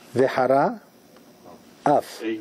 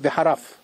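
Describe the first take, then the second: First: The two words are separated by a break. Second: The two words are run together quickly.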